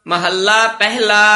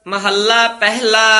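The two takes are said the same way.

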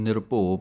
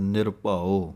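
First: The second syllable is a short 'bho' sound. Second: The second syllable is a fuller 'bhau' sound. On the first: The speaker calls it wrong. "कई निरभो पढ़ जाते हैं" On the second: The speaker calls it right. "ये भाओ का पाठ है"

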